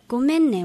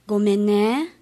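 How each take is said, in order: First: Said in the usual way. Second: ごめんね with the Osaka pitch accent. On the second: Shown as a demonstration. Student demonstrating Osaka ごめんね, subtle accent shift. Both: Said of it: "大阪弁のアクセントは違います".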